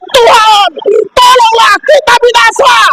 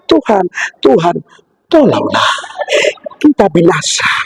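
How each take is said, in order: First: It is said with lively expression. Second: It is said flatly, without expression.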